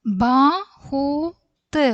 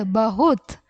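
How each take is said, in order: First: ബഹുത് drawn out slowly, syllable by syllable; slow syllable drill. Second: Said in the usual way. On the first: Shown as a demonstration. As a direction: stretch ബഹുത് out for the class. Teacher drawn-out model word. (ബഹുത് പതുക്കെ നീട്ടി ഉച്ചരിക്കുന്നു)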